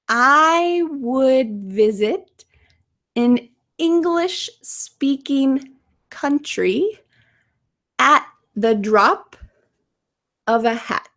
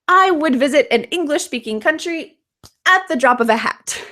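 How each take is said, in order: First: The sentence is spoken slowly and carefully. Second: The sentence is spoken at a quicker pace. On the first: "Let's say it slowly" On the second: "Let's say it a little faster"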